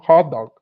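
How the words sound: The final T and D are silent, unreleased. "eles falam com, com o T e o D mudo"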